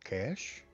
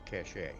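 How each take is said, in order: First: The word is said the plain English way. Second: The word is said the French way. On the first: The speaker calls it right. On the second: The speaker calls it wrong.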